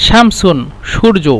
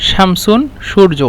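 No difference in how they are said.

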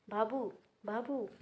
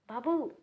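First: Slow, drawn-out crying call of the name; mother weeping for her son, slow; collapsing sob. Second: Put-on a loud, raised cry for her child; mother screaming her baby's name; anguished shout. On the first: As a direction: let the name break as she sinks down. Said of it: "గట్టిగా ఏడుస్తూనే". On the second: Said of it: "అని గట్టిగా అరిచి". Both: A narrator's reading.

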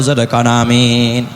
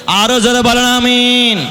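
First: Said in the usual way. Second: High, ringing call with a held amen; rally the crowd for a bigger amen; louder amen call. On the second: Real, not acted. Preacher urging the crowd to say amen harder, high drawn-out call.

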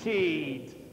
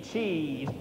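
First: "Cheat" said low, ending in a soft d, "cheed"; soft final d. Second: "Cheat" said low with a d ending, "cheed"; soft final d. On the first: Chorus master teaching the choir "Cheat" ending like "cheed". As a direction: end "Cheat" on a d, not a t. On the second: Chorus master repeating "Cheat" for the choir, ending in d. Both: Shown as a demonstration. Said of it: "make it more of a D".

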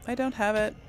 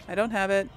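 No difference in how they are said.

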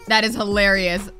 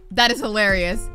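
The two takes are said the same way.

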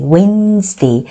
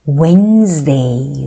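First: Wednesday again as wensde, no d, slow; silent d. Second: Wednesday said as wenz-day, no d sound, slow and low; silent d. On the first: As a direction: repeat Wednesday without the d, wensde. (d 소리 없이 웬즈데이로 다시) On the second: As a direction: drop the d in Wednesday, say wenzde slowly. (Wednesday의 d를 빼고 웬즈데이로 천천히) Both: Shown as a demonstration. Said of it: "이 D가 묵음 나거든요".

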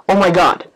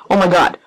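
No difference in how they are said.

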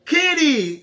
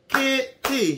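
First: Said in the usual way. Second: Kitty in two separate beats, kit, tee; split into syllables. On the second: Shown as a demonstration. Teacher clapping with campers, Kitty split into syllables. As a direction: clap it out: Kitty, one syllable per clap. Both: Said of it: "let's clap kitty".

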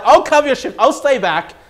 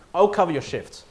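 First: Higher, louder, keen insistence; eager offer. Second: Said in the usual way. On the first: Retold or imitated. Offering to cover a colleague's shift, eager louder insistence. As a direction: jump in eagerly to help.

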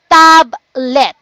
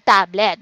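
First: "Tablet" broken in two, Tab, let; split into syllables. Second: Said in the usual way. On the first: Shown as a demonstration. Teacher showing first and second syllable, word split in two. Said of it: "so we have two syllable". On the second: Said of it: "two syllables in the word tablet".

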